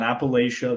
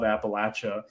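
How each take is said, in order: First: The name is said the northern way. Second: The name is said the southern way. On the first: This is how people say it up north. The speaker calls it wrong. "It's not Appalachia. They'll get really pissed if you say it that way" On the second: This is how locals down there say it. The speaker calls it right. "but down there, I love Appalachia"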